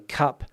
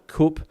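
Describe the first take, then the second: First: The vowel is open, like in 'but'. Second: The vowel is rounded, like in 'book'. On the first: "I say cup" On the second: "you say coop"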